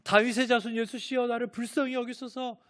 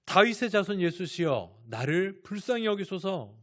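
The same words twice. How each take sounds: First: High, urgent imitated shout for mercy; louder crying out. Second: Imitated blind beggar's raised plea; crying out. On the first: Blind Bartimaeus defies the hushing crowd, crying out louder. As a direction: shout the plea in a raised, high voice. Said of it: "더 크게 소리 지른다고 합니다". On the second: Blind Bartimaeus calls to passing Jesus for mercy, crying out. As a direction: call out for mercy, higher than usual. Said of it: "소리 소리를 지릅니다".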